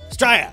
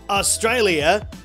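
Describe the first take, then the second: First: It is squashed into about one syllable. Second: All syllables are said in full.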